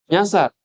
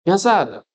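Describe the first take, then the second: The two takes are said the same way.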